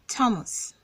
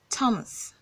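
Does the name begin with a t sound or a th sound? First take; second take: t sound; t sound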